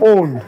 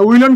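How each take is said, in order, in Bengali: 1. এটা won't-এর মতো বলা হয়, l ছাড়া। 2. এতে l ধ্বনিটি থাকে: willon। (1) "এটাকে এইভাবে বলতে ওন বলা হয়" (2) "উইলন কিন্তু বলা যাবে না"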